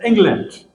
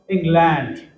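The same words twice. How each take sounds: First: It is pronounced the English way. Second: It is pronounced the Hindi way. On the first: "when we say something about England in English, it is England" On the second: "When we are talking in Hindi, England becomes England"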